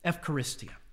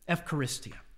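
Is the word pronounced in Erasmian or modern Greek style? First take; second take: modern; modern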